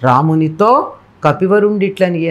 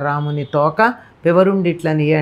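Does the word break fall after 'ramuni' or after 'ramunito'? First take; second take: after ramunito; after ramuni. First: The words are split after 'ramunito' and 'kapivarundu'. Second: The words are split after 'ramuni' and 'toka'. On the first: The monkey chief spoke this way to Rama. The speaker calls it right. "ఏం చదవాలి గానీ" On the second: Rama is given a tail. The speaker calls it wrong. "అంటే ఏం బావుంది"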